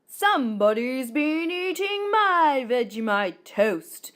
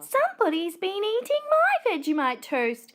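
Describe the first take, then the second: First: It is growled in a low daddy voice. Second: It is squealed in a high mummy voice.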